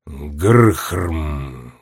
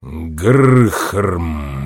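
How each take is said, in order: First: Low, muffled rumbling growl; a dull grinding grunt from deep in stone; muffled stone giant growl; stone giant's grunt. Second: Low, rumbling growl; low stone giant rumble; stone monster's grunt. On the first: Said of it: "глухо пробормотал ближайший к ней каменный великан". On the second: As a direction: grind it out deep like a rock giant. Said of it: "повторил монстр". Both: A narrator's reading.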